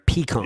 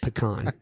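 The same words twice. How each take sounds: First: The first vowel is a long e sound. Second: The first vowel is a short e sound. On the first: "so you throw a long e in there" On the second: "I throw a short. ... That's how I say it. Like [name]"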